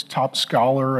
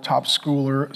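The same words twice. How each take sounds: First: Said in the usual way. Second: "schooler" slipped out with a long oo vowel; mispronounced word. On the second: Real, not acted. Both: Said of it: "I can't say it".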